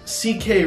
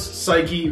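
First: The name is said as two letters, C and K. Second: The name is said as one word, like psyche. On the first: The speaker calls it wrong. "They pronounced it Basileios C-K Roy" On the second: The speaker calls it right. "I put a pronunciation for Psyche to like make it easier to pronounce"

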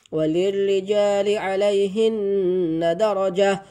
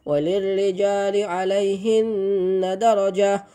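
The two takes are said the same way.

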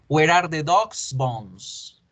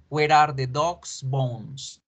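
Both takes have the same delivery.

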